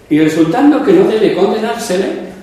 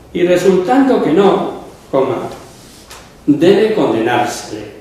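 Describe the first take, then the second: First: It runs on without a break after "no". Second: There is a break after "no".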